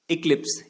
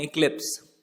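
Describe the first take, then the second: First: इक्लिप्स said on its own, each syllable clear, falling; correct pronunciation. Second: Said in the usual way. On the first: Shown as a demonstration. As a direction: model इक्लिप्स carefully for the class. (इक्लिप्स का सही उच्चारण, साफ़-साफ़) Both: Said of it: "correct pronunciation है इक्लिप्स".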